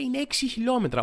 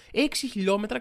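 First: Higher, falling on έξι as if announcing a fact; mock article read. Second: «Έξι» lifted on a rise, mock amazement; sarcastically impressed. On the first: Reading the article aloud to viewers, pointed mock announcement. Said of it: "διαβάζω παρακάτω και λέει". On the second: Shown as a demonstration. Mocking the article after finally getting a number, sarcastic awe. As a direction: echo «Έξι χιλιόμετρα» with a rising mock wow. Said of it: "τώρα εντυπωσιάστηκα".

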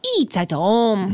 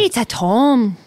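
First: Slow Irish mimicry drifting toward Asian; slow, off-target mock accent, a little Asian; botched accent, vaguely Asian. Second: Mock Irish copy of the host; imitated Irish accent. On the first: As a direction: draw it out in a muddled Asian-sounding accent. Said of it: "Now it's a little Asian". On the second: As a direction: mimic "tome" in an Irish accent. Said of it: "That was closer".

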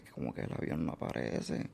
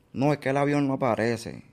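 First: Breathless stunned whisper, much softer. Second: Said in the usual way. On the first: Retold or imitated. Hearing the plane vanished, repeating it in a stunned whisper. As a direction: echo it under your breath in shock. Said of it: "Y yo me quedo como que". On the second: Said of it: "Y yo".

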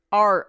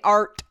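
First: Said in the usual way. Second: "art" with a clearly released final T; hard final T. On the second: Shown as a demonstration. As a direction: sound out the T ending "art". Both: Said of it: "I don't say art".

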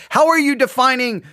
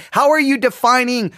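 Both takes have the same delivery.

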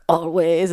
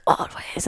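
First: Understated movie-line quote; Snape. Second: Softer, hushed echo; a child echoing. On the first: Mom quotes a film line in a watch-along story, understated character quote. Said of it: "Snape said something like". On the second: Child echoes the film a moment late, soft imitated echo. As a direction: repeat the line softly, like a delayed echo. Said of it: "and then she echoed". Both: Retold or imitated.

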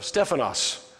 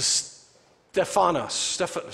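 First: "Stephanos" with the emphasis on STEPH; STEPH-anos, stressed at the front; stress on first syllable. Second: Drawn-out "Steph-" word, stressing the syllable after "Steph"; stress shifted to second syllable. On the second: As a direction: slowly try "Steph-" with the emphasis moved later. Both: Shown as a demonstration. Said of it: "put the emphasis on a different syllable".

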